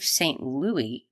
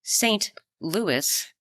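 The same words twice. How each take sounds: First: "Louis" said as LOO-ee; Louie pronunciation. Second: "Louis" higher, as LOO-iss; Louis with final S. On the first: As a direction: leave the S silent in "Louis", LOO-ee. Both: Real, not acted.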